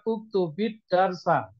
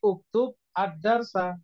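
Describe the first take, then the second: First: The words run together with a linking vowel. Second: The words are cut apart with a break. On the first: "secara wasol, sambung" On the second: "Kalau niatnya bacanya itu diputus"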